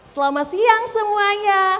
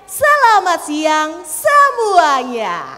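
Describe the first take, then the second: First: The stress falls on selamat siang. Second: The stress falls on semuanya. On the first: "Mau ditekannya di selamat siang" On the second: "atau di semuanya"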